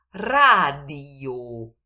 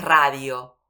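First: Slow, loud "radio" as RA-di-o; separated vowels. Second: "radio" run into two syllables, RA-dyo; diphthong, wrong version. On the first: Teacher correcting the diphthong, each vowel separate. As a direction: pull i and o apart in "radio". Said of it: "cada uno la separo". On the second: Teacher showing what it is not, quick diphthong. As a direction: glide the io of "radio" together. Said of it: "no es radio". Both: Shown as a demonstration.

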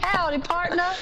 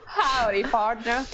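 First: High-pitched mock-Texan "Howdy, partner"; Southern American accent. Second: "Howdy, partner" drawn out, American "pardner"; Southern American accent. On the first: Contestant egged on by host, high Southern American accent. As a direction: put on a high cowboy-style American accent. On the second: Contestant retrying for the host, drawn-out Southern American accent. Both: Shown as a demonstration. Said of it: "can you say howdy".

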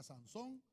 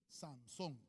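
First: Sansón, with the final syllable SÓN stressed. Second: Said in the usual way. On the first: Shown as a demonstration. Preacher teaches the congregation the stress on the O. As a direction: land on the O of Sansón. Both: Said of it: "acento en la O".

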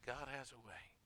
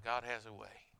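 First: "God has a way" dropped soft and reverent; hushed repeat. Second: Said in the usual way. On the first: Acted. Preacher repeating "God has a way" to his congregation, softer. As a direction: let the echo of "God has a way" sink in softly.

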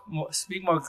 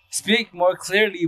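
First: Said in the usual way. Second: Slow and carefully spaced; slow, clear speech. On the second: Shown as a demonstration. Showing viewers his slowed-down delivery, slow and careful. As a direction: draw each word out deliberately.

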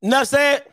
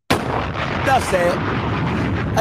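First: Said in the usual way. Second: Whispered. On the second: Shown as a demonstration. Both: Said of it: "repeated different takes".

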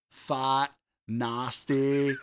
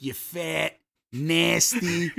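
First: "fat, nasty" with soft A, like "faht, nahsty"; soft Florida A. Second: "fat, nasty" with hard, flat Midwestern A; hard Chicago A. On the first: Retold or imitated. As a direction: soften and open the A in "fat, nasty". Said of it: "this, like, weird, soft". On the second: Shown as a demonstration. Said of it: "that Midwestern Chicago, like, hard A".

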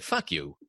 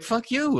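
First: Low, soft mock retort; a mock brush-off, lower and softer; deadpan retort. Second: High, laughing mock retort; playful brush-off, much higher. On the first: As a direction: toss it back low and dry, half joking. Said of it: "I said". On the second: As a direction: fire it back high through laughter. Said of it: "I'm like".

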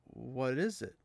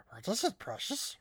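First: Said in the usual way. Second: Higher, hissing Gollum-like whine. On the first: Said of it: "he said". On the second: Retold or imitated. Mimicking the characters as Gollum, high creature whine. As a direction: coo it like Gollum. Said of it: "they're like".

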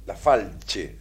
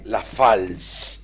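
First: "Falche" with a che ending; name read as "Falche". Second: "Fals" drawn out, ending in s; name read as "Fals". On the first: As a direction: try "Falche", ch sound before final e. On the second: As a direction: read "Fals" slowly with a final s. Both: Shown as a demonstration. Trying readings of a written surname.

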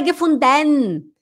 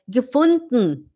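First: Higher "gefunden" with a drawn-out "denn"; full -den ending. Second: Slow "gefunden" with no final e, just an n; swallowed ending. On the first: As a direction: overpronounce the e in "gefunden". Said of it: "Não é gefunden". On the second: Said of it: "é gefunden". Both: Shown as a demonstration.

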